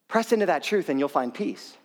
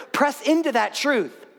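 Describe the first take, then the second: First: Calm assurance. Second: "Press into that truth" high-pitched and drawn out; emphatic urging. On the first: Repeats exhortation, settling toward peace. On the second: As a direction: climactic preacher's push on "Press into that truth". Preacher climaxes his urgent exhortation. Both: Real, not acted.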